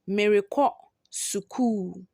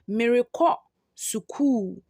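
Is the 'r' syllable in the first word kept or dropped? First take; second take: kept; kept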